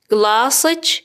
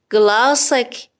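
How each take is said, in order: First: گلاسچ with final -ech; feminine ending. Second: گلاسک with final -ek; masculine ending. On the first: Teacher models a woman's glass, گلاسچ with final ch. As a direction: close گلاسچ on a ch. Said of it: "کافیه کلمه رو به اضافهٔ چه کنید". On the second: Teacher models a man's glass, گلاسک with final k. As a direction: close گلاسک on a clear k. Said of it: "لیوانت". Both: Shown as a demonstration.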